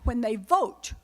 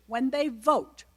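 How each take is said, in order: First: "vote" leaned on with a rising tune; "when they vote" with the weight on vote; stress on vote. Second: "they" is the stressed word; "when they vote" with the weight on they. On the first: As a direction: push the word vote up. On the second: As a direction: lean on they, not vote. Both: Shown as a demonstration.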